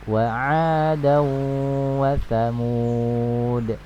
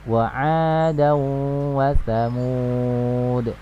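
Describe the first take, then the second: Both takes have the same delivery.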